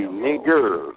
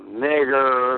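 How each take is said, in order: First: "nigger" said with an open "-a" ending, no R; corrected pronunciation. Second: "nigger" drawn out with a hard "-er" ending; rejected pronunciation. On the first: Caller correcting another's word, "nigger" ending in "-a". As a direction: end "nigger" on "uh", dropping the R. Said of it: "It supposed to be". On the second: Caller showing the rejected form, "nigger" with hard "-er". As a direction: stretch "nigger" and sound the final R. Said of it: "not nigger". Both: Shown as a demonstration.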